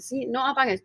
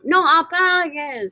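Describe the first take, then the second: First: Said in the usual way. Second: "No" drawn out and stressed. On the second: Shown as a demonstration. Teacher stressing "No" in "No apagues". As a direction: lean on "No" slowly, then "apagues".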